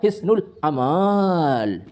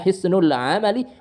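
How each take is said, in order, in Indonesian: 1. Vokal setelah huruf m itu panjang. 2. Vokal setelah huruf m itu pendek. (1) "mimnya itu dibaca panjang" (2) "setelah mim enggak ada alif"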